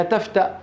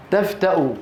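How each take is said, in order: First: تفتأ ending on a bare glottal stop; stopping form. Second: تفتأ ending in a voiced u, tafta-u; continued form. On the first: Teacher shows how we stop on it, تفتأ without final u. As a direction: cut تفتأ off at the hamza, no vowel. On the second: Teacher reads the written word, تفتأ ending in u. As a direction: say تفتأ with final u after the hamza. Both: Shown as a demonstration. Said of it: "نقف عليها".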